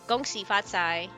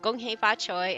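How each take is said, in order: First: It is pronounced the Mandarin way. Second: It is pronounced the Cantonese way. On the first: "the Cantonese versus Mandarin version" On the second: "the Cantonese versus Mandarin version"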